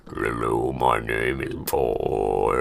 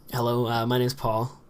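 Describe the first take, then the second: First: Very low, slow drawn-out greeting; really deep voice. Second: Relaxed, unprojected introduction; lazy casual speech. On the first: Vlogger demonstrating how deep he goes, very deep. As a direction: drop right to the bottom of your voice. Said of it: "make my voice go really deep as well". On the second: Vlogger showing how he talks to friends, lazy. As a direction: mumble it lightly, as to friends. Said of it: "I kinda get lazy". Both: Shown as a demonstration.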